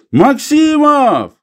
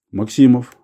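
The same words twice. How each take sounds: First: High, drawn-out loud call; shouting. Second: Said in the usual way. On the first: A narrator's reading. Old man calling his companion to the find, shouting. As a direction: holler the name slowly across a distance. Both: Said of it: "и крикнул".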